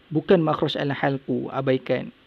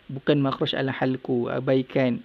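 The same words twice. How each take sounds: The two takes are said the same way.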